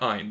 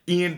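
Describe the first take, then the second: First: The name starts with an 'eye' sound. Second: The name starts with an 'ee' sound. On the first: The speaker calls it wrong. "they call him Iron" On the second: The speaker calls it right. "his name is Ian"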